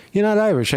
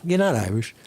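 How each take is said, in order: First: Higher, punchier repeat; emphatic repeat. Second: Said in the usual way. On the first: Shown as a demonstration. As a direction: hit it harder the second time. Repeated line, second louder.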